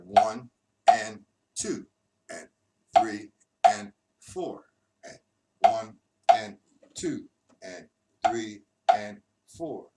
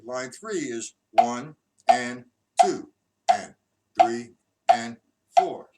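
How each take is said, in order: First: "one and two and three and four" drawn out, louder; loud slow count. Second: "one and two, and, three and four" slow and much louder; loud slow count. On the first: Teacher counting the version with lefts removed, slow and loud. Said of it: "now we eliminate the lefts". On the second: Teacher announcing line three, counting slowly and loudly. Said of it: "we're gonna go to line three". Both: Shown as a demonstration.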